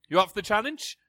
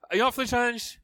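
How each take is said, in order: First: Said in the usual way. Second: Higher, livelier challenge to the crowd; more enthusiastic. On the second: Shown as a demonstration. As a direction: push them to get fired up. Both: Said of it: "a bit more enthusiasm is called for".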